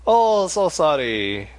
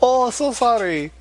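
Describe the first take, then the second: First: Put-on Asian accent. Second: High, slow put-on Asian accent; mock Asian accent. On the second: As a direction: imitate an Asian accent, slowly. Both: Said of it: "That's my Asian imitation".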